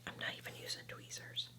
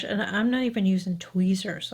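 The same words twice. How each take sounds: First: Unvoiced whisper, much softer. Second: Said in the usual way. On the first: Real, not acted. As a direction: drop to a whisper as if sharing a secret. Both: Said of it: "I don't know why I'm whispering".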